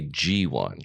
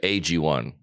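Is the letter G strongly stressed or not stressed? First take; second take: stressed; not stressed. First: The G is said with strong emphasis. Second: The G carries no special emphasis. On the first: "I put the pronunciation on the G" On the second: "A lot of people say"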